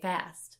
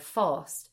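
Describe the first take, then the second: First: The word is said in an American accent. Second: The word is said in a Cockney accent. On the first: The speaker calls it wrong. "But Americans say fast" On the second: The speaker calls it right. "he's supposed to be like a Cockney... So he should always be saying fast"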